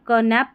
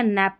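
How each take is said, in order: First: क नैप with an added "ka" syllable; K sounded. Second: नैप with the N as first sound; silent K. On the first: Teacher asking learners again, क नैप with K sounded. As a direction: put a "ka" before the N in क नैप. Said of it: "क नैप पढ़ेंगे या नैप पढ़ेंगे". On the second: Teacher asking which is right, नैप with silent K. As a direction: begin नैप on N, K left out. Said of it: "के silent है". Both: Shown as a demonstration.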